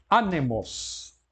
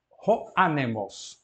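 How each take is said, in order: First: "anemos" slow, accent on the last syllable; Greek word demo. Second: "Ro anemos" slow, stress on "anemos"; Greek phrase demo. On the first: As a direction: say it slowly for the class. (pronúncia lenta de "anemos") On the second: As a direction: model the phrase slowly. (pronúncia lenta de "Ro anemos") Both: Shown as a demonstration. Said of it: "esta é própria oxítona".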